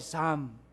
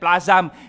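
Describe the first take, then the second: First: The l is silent, with one syllable. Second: The l is sounded, with an extra vowel. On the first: The speaker calls it right. "Yan po ay Psalm" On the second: The speaker calls it wrong. "Yung iba, ang pronunciation niyan, plazam. Hindi po yan plazam"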